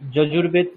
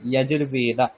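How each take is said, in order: First: It starts with 'j' and ends on a consonant. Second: It starts with 'y' and ends on a vowel. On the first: The speaker calls it wrong. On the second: The speaker calls it right.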